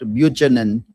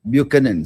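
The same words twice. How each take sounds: First: The middle consonant is a 'ch' sound. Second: The middle consonant is a 'k' sound. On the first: The speaker calls it wrong. "not ch" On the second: The speaker calls it right. "but k sound"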